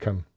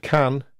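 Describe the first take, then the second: First: The vowel in can is reduced to schwa. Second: The vowel in can is a full vowel. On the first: "it can also be reduced to can" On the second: "the pronunciation of the word can"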